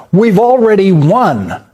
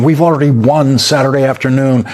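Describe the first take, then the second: First: Higher and slow, every word of "We've already won!" pressed hard; mock triumphant exclaim. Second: Said in the usual way. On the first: Anchor mocking Trump's victory post, exaggerated triumphant exclaim. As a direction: read the boast the way it was posted, exclamation and all. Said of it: "exclamation point". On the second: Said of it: "Unconditional surrender Friday morning".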